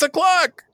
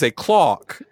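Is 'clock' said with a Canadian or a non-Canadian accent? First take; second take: non-Canadian; Canadian. First: The word has a non-Canadian vowel. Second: The word has a Canadian-style vowel. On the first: The speaker calls it right. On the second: The speaker calls it wrong. "they're like teaching kids about pronunciation and they're all wrong"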